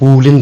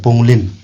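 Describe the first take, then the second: First: The u vowel is long, with no ng sound. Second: An ng sound comes before the l. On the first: This is how the speaker's own group says it. "Long vowel ऊ को long pronounce करके पुलिन बोला" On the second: This is how the group that adds ng says it. "जो एनजी डालता है वो पुंगलिन बोला"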